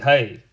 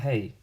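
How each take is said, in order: First: The word is said at a louder volume. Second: The word is said at normal, quieter volume.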